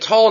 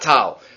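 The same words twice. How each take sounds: First: The vowel is a rounded 'aw' sound. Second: The vowel is an open 'ah' sound. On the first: The word ends a phrase at a break. The speaker calls it right. "When you have a break, you say tal" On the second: The word runs on without a break. The speaker calls it wrong. "not tal"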